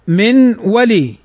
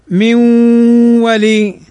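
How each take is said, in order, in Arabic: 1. يُنطق الصوت n بوضوح قبل الصوت w. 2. يندمج الصوت n في w مضعّف مع غُنّة. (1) "أصلها من ولي" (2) "تضغم فتصير حرفا واحدا مشددا مع الغنة"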